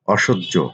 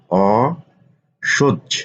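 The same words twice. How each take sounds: First: Said in the usual way. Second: অসহ্য said very slowly, sounds held; drawn-out spelling. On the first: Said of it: "teacher repeats word slowly". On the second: Shown as a demonstration. Teacher to students, slowly stretching অসহ্য. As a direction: linger on অসহ্য. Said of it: "teacher stretches word for students".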